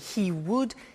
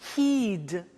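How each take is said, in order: First: Both words are said in full. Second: The words are shortened into one syllable.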